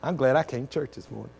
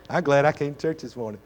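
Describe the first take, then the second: First: Said in the usual way. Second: Laughing. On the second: Real, not acted. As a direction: say it through a real chuckle. Repeats line, second with laugh.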